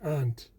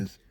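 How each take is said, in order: First: It is said in a Boston accent. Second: It is said in a New York accent.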